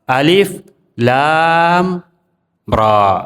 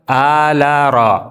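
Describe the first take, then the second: First: Each letter name is said separately, with breaks. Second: The letters run together as one joined word. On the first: The speaker calls it right. "Cara membacanya terpotong, tidak nyambung" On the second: The speaker calls it wrong. "Tidak dibaca ala ra"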